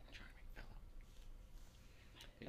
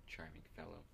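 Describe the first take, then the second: First: Slow, soft whisper; whispered aside. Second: Soft, lower-pitched repeat of a whisper; low-voiced aside. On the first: Acted. Character comments privately on the barkeeper, whispering. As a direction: whisper it slowly under your breath. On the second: Player repeats a whispered remark to game master, softly voiced. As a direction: voice it quietly, short of whispering. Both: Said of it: "I, I whispered".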